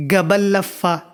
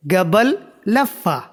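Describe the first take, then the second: First: Said in the usual way. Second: قبل لفہ drawn out slowly, word by word; slow demo. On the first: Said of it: "یہاں بولو گے". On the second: Shown as a demonstration. Teacher showing viewers the Arabic phrase, very slow. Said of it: "اس کو آپ بولو گے".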